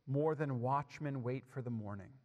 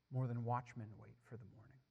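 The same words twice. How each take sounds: First: Said in the usual way. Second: Softer, lower repeat of the verse; hushed repeat. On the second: Acted. Preacher repeats a psalm verse to the congregation, hushed. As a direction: let the repeated verse sink in, hushed and low.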